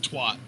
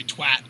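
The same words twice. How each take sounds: First: "twat" said to rhyme with "doc"; own pronunciation. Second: "twat" said to rhyme with hat; accented pronunciation. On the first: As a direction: say "twat" with an open ah vowel. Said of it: "'cause we say twat". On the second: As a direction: say "twat" with the short a of "cat". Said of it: "might have with your accent". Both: Shown as a demonstration.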